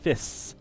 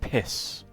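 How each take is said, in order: First: The word starts with an f sound. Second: The word starts with an aspirated p. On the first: The speaker calls it wrong. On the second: The speaker calls it right.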